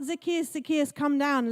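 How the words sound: The call sounds stern and lecturing. The caller wants to scold the listener. The speaker calls it wrong. "Not ... let me preach at you"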